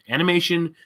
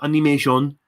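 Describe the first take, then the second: First: It is said with an English pronunciation. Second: It is said with a Japanese pronunciation.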